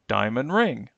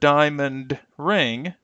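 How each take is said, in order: First: The final D of diamond is dropped. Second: The final D of diamond is clearly pronounced. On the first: "the D is going to essentially be cut" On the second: "Instead of diamond ring"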